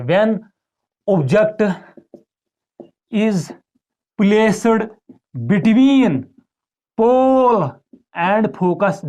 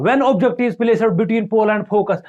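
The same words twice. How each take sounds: First: Dictating word by word. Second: Slow dictation. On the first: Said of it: "question ऐसे आता है". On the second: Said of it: "बताओ". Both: Shown as a demonstration.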